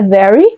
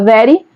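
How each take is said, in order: First: It is said with an American English accent. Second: It is said with a Portuguese-sounding accent. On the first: This is how people in films say it. "aquele sotaque, é very, né, o inglês americano" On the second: This is said to make it easier to understand. "ela fala very, assim, do jeito mesmo como se fosse mais fácil"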